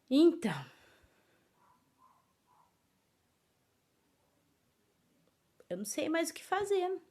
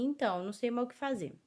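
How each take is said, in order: First: There is a pause after the first word. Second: There is no pause after the first word. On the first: The speaker calls it right. "a vírgula vai dar sentido a essa leitura" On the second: The speaker calls it wrong. "Porque senão ficaria assim"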